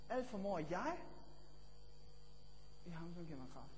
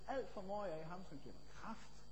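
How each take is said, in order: First: The word jeg carries the stress. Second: The word kraft carries the stress. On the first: "Eller det næste, jeg" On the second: "jeg kunne betone kraften og sige"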